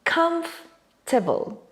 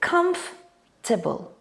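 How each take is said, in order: First: The middle letters are dropped, giving three syllables. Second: The middle letters are dropped, giving three syllables.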